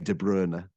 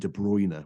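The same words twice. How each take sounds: First: The name has a less familiar pronunciation. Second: The name has the familiar, widely used pronunciation. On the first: The speaker calls it right. "you'll be criticized if you say De Bruyne. People will say, "Who's this guy?" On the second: The speaker calls it wrong. "it's so ingrained that it's Kevin De Bruyne, which is the incorrect pronunciation of it"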